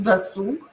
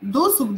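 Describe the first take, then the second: First: Досуг with stress on last syllable СУГ; right take, досУг. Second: Досуг with stress on first syllable ДО; wrong take, ДОсуг. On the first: (досУг, ударение на второй слог) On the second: (ДОсуг, ударение на первый слог) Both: Shown as a demonstration. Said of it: "Досуг или досуг?".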